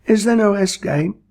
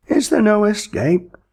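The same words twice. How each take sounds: First: Whispered, pleading; unvoiced desperate whisper; whispered plea. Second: High, pleading wail; desperate plaintive cry. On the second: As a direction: beg plaintively, much higher. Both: A narrator's reading. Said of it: "plaintively asked the victim".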